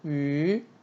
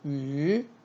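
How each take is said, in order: First: The pitch rises from mid to high. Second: The same.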